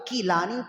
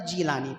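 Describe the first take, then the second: First: The name begins with a K sound. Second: The name begins with a J sound. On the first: This is the Arabic reading, using kaf. "जब अरबी में इसको पढ़ते हैं ना तो या तो कीलानी" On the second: This is the Arabic reading, using jeem. "या जीलानी पढ़ते हैं"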